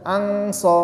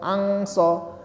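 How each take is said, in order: First: The n is pronounced as a clear ng sound. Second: The same.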